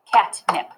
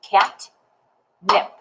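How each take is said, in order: First: Said in the usual way. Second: "Cat", long pause, "nip"; two isolated beats, "Cat" then "nip"; syllable clapped. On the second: Shown as a demonstration. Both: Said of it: "if I syllable clap it".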